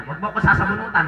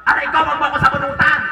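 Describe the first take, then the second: First: Said in the usual way. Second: Higher, louder playful complaint; mock pained protest. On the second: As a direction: protest as if your hair is pulled. Pretend pain at hair pulling. (kunwaring nasasaktang pag-angal)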